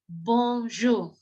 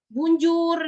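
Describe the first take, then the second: First: The first syllable has a nasal 'on' vowel. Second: The first syllable has a plain 'oo' vowel. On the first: The speaker calls it right. "yang ada adalah bonjour" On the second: The speaker calls it wrong. "Jadi tidak ada tidak ada lagi bacanya"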